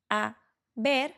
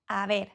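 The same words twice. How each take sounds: First: The two words are said separately. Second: The two words are run together. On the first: "instead of saying a ver" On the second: "we say a ver, kind of like all together"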